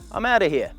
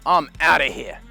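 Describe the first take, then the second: First: It is said in a light, friendly tone. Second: It is said in a bored, dismissive tone. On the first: The speaker is leaving casually, with no disrespect. The speaker calls it right. "You would say it like this" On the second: The speaker is bored and uninterested and wants to leave. The speaker calls it wrong. "You would not say it like this, oh"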